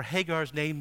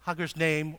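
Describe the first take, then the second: First: "Hagar's" said HAY-garz, stretched name; corrected pronunciation. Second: "Hagar's" said HUH-gurz; quick first try at "Hagar's"; first pronunciation. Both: Shown as a demonstration. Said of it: "or Hagar's name".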